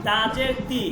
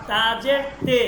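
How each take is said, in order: First: "তি" with an ee vowel; "তাজের তি" spelt out, ending in ee; Arabic-style zer. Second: "তে" with an ay vowel; "তাজের তে" spelt out, ending in a held e; Persian-style zer. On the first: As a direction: say "তি" as tee, the Arabic way. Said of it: "আমি normally আরবিতে". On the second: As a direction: say "তে" as tay, not tee. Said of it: "তখন আপনাকে উচ্চারণ করতে হবে". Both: Shown as a demonstration.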